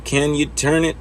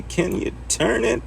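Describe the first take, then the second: First: Said in the usual way. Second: High, slow, sing-song ask; high drawn-out repeat. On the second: Pretend. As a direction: stretch the question up high and slow. Repeats the question in a put-on voice.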